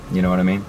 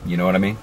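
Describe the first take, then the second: No difference in how they are said.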